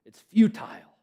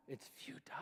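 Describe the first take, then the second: First: Said in the usual way. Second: Unvoiced secret whisper; whispered futile, nearly silent. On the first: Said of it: "it's futile (whispered)". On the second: Shown as a demonstration. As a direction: lean in and breathe it.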